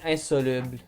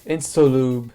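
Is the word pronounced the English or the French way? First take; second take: French; English. First: The word is said with a French pronunciation. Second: The word is said with an English pronunciation. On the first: The speaker calls it right. "the French pronunciation is" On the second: The speaker calls it wrong. "I'm not good at pronouncing anything ever"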